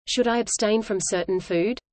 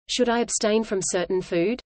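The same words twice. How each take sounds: The two takes are said the same way.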